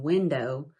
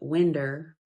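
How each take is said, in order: First: It is said in standard pronunciation. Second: It is said in old Appalachian pronunciation. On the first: "Instead of saying" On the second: "they would say"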